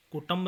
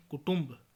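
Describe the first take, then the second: First: कुटुंब with short a after ṭ; mispronunciation. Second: Said in the usual way. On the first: Shown as a demonstration. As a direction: say ku-ṬAMB for कुटुंब. (कुटुंब को कुटंब बोलें) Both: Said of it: "नहीं".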